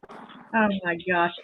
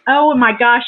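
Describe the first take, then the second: First: Softer, slow, breathless oh my gosh; hushed awe at the gift; awed hush. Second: Louder, brighter oh my gosh; excited outburst. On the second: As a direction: burst out with delight. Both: Real, not acted. Opening a gift.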